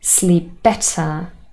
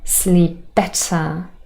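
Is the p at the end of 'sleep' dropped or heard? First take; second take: dropped; dropped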